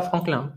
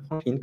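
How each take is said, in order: First: "Franklin" ending in the nasal vowel of "vin"; fully French nasal ending. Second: "Franklin" ending as "-kline", n pronounced; sounded final n. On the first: Teacher showing what is not said, nasal French ending. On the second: Teacher giving the accepted French version, final n sounded. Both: Shown as a demonstration. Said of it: "On dit pas Franklin".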